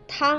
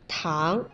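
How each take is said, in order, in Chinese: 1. 这个音节读高平调。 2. 这个音节读升调。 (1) "汤啊是一声" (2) "糖是二声"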